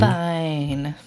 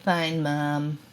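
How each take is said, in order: First: Put-on grunted one-word teen reply; sulky teen mumble. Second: Put-on dismissive teen muttering at mom; sulky teen mumble. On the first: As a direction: mumble it like a bored teenager. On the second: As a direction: say it like a sullen kid brushing off mom. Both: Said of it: "Sullen teen's response".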